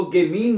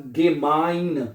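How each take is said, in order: First: गेमीन with "ee" where "eye" belongs; "ei" misread as ee. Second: Slow गेमाइन with an "eye" sound in the second syllable; teacher's slow model of गेमाइन, "ge-MINE"; "ei" read as English I. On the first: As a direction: say गेमीन, ending like "mean". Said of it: "इसको गेमीन नहीं पढ़ना है". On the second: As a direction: draw out गेमाइन, ending like "mine". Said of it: "तो क्या बनेगा?". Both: Shown as a demonstration.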